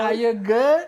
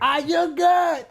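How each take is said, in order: First: It is said at normal loudness. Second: It is said louder, with more force.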